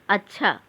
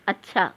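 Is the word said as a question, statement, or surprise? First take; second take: question; statement. First: It is said with a questioning rise. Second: It is said flatly, falling like a statement. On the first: It asks something. "प्रश्न" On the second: It states a plain fact. "सामान्य कथन"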